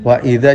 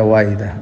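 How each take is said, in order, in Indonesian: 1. Hamzah sebelum idza terdengar jelas dan tegas. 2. Hamzah sebelum idza terdengar lembut dan santai.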